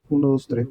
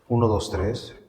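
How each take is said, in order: First: The voice has a soft, smooth filter. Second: The voice has a melodic, echoey filter. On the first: "otro que se llama suave" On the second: "Y el melódico"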